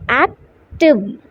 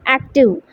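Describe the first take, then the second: First: "active" in two beats, ac, pause, tive; split into syllables. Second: Said in the usual way. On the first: Shown as a demonstration. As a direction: break "active" after the c, with a clear gap. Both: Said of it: "you want to split the word".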